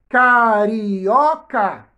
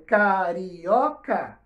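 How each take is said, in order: First: Carioca drawn out very slowly and loudly; slow emphatic word. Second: Carioca said very slowly at a normal level; slow soft repeat. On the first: Teacher presenting the word to the class, very slow and loud. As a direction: lean hard on carioca as you stretch it. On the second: Teacher repeating the word for pupils, slow and gentle. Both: Shown as a demonstration.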